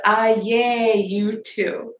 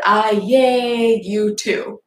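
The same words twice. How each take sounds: First: Slow reread that leans on "I"; "I" stretched and stressed, "yay you too" trailing after it; rereading the odd text. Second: Slow, puzzled reading with weight on "yay"; "yay" drawn out as if it were a real word; reading the odd text. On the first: Rereading the text to viewers, slow and stressed on I. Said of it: "It says". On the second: Reading the garbled message aloud to viewers, slowly and puzzled. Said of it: "it said". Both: Retold or imitated.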